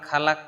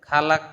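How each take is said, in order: The two takes are said the same way.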